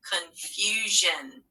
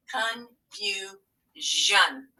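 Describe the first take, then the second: First: Drawn out slowly, each sound clear; slow stretched word. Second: Stretched out, sound by sound; very slow word. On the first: Teacher modelling a spelling word, slow and clear. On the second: Teacher stretching the word for spelling, very slow. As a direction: say it slowly so they hear the ending. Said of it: "which one does it have to be?". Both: Shown as a demonstration.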